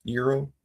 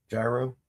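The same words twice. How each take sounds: First: "Euro" said YEER-oh, rising; alternate pronunciation. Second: "Gyro" said JAI-roh, rising; spelling pronunciation. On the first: Trying out how gyro is pronounced, "Euro" as YEER-oh. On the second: Trying out how gyro is pronounced, "Gyro" as JAI-roh. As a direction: say "Gyro" with a J sound, questioning. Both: Shown as a demonstration. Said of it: "Gyro is really pronounced hero".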